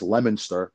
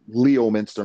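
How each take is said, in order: First: It is said like lemon followed by ster. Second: It is said as spelled, like Leo-minster. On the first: This is how people from New England say it. "it's pronounced Lemonster" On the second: This is how an outsider from New York says it. "I pronounce it that way"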